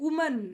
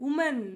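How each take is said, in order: Both takes have the same delivery.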